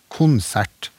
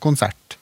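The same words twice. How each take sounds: First: The stress is on the first syllable. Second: The stress is on the last syllable. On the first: This is the eastern and central Norwegian pattern. "samme mønster" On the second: This is the coastal and northern Norwegian pattern. "trykkplasseringer som er mer fremmed i et norsk perspektiv"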